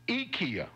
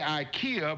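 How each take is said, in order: First: It is said the Swedish way. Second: It is said the usual American way. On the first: "in Sweden, where it's based, they say IKEA" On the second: "We say IKEA"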